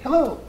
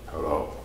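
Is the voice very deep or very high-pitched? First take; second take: high-pitched; deep. First: It is said in a high-pitched voice. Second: It is said in a deep Darth Vader voice.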